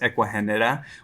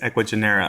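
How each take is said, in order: First: The name is said with its original non-American pronunciation. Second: The name is said with an American English pronunciation. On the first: This is the true name of the company. "That is how it's pronounced" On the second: This is the company's American name. "our American name is Equigenera"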